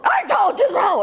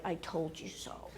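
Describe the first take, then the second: First: High, loud shouted retort; triumphant shout. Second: Low, slow and very quiet; restrained I-told-you-so. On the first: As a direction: yell it down the phone. Daughter grabs phone, yells, hangs up. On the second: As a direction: murmur it, holding back the urge. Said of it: "he's dying to say". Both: Retold or imitated.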